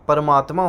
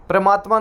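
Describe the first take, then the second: First: परमात्मा opening "par", vowel before the r; careful परमात्मा, no "pra" cluster; correct परमात्मा. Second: परमात्मा with p and r run together; the faulty परमात्मा, opening on a "pra" cluster; mispronounced परमात्मा. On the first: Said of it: "होता है". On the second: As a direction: say परमात्मा wrongly as "pramaatma". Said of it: "नहीं होता". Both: Shown as a demonstration.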